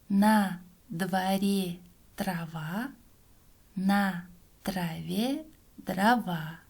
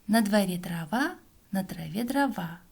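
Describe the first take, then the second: First: The phrase is spoken slowly. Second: The phrase is spoken very fast. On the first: "Сначала читаем медленно" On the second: "А теперь еще быстрее"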